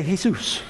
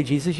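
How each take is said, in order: First: "Jesus" said the Spanish way, hay-SOOS; Spanish pronunciation. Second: Said in the usual way. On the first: Shown as a demonstration. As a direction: say "Jesus" with an H and stressed second syllable. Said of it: "if you're Spanish". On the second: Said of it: "you don't say Jesus".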